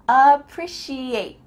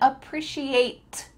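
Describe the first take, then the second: First: The final T sound is cut off. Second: The final T sound is fully released. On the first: The speaker calls it right. "the T's cut out" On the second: The speaker calls it wrong. "Am I saying appreciate? Nope"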